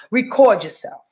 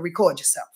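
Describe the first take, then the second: First: Said in the usual way. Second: Softly dropped, low and quiet; quiet advice. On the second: Real, not acted. Telling listeners to record themselves, said quietly. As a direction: murmur the advice almost to herself.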